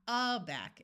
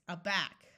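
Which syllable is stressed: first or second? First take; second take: first; second. First: The stress is on the first syllable. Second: The stress is on the second syllable. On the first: The speaker calls it wrong. "It's not aback" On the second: The speaker calls it right. "it's aback"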